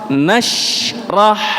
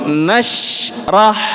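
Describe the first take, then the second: First: The sh sound is finished before the r. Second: The same.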